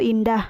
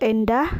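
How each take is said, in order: First: The first vowel is said as i. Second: The first vowel is said as e. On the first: The speaker calls it right. "yang benarnya yaitu" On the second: The speaker calls it wrong. "Contoh salahnya yaitu"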